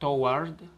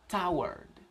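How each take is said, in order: First: The 'war' part sounds like 'war'. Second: The 'war' part sounds like 'word'. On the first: The speaker calls it wrong. "No lo vas a decir toward" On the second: The speaker calls it right. "dilo toward"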